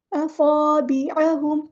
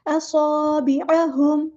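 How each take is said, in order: First: असाबिअहुम read without the whistle on स्वाद; wrong recitation. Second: असाबिअहुम with a clear whistling स्वाद, very slow; correct recitation. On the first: Teacher shows students the wrong असाबिअहुम, mistaken recitation. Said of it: "ऐसे नहीं पढ़ना". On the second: Teacher corrects the mistake for students, slow correct recitation. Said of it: "स्वाद में सीटी लेकर आनी है". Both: Shown as a demonstration.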